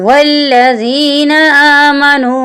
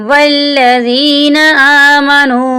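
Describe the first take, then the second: No difference in how they are said.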